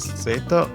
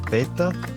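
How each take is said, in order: First: The z sounds like s. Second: The z sounds like th. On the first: "pronounced as the English S" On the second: "in Spain, they may pronounce it as a T H sound"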